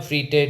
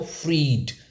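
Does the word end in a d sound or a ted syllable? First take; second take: ted syllable; d sound. First: It ends with an extra ted syllable. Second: It ends in a plain d sound. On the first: The speaker calls it wrong. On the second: The speaker calls it right.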